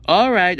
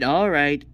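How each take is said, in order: First: Louder, firm all right. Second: Lower, resigned all right. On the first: Character agrees to turn voice back, firmly. Gives in to friends. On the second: Character gives in to turn voice back, resigned. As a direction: drop it down, giving in. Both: Acted.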